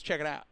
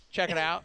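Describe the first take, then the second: First: Said in the usual way. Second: "check" hit a bit louder, knowing tone; slightly louder catchphrase. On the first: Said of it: "he goes". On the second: Retold or imitated. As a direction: play up the pal's signature line. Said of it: "And when Josh says".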